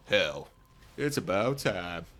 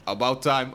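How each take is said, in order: First: Badly faked Southern US drawl; shitty Southern accent. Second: Said in the usual way. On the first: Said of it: "With my shitty Southern accent".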